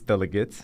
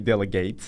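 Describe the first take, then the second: First: The last syllable is short and reduced. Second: The last syllable sounds like the word gate. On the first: The speaker calls it right. "it's delegate" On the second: The speaker calls it wrong. "don't say delegate"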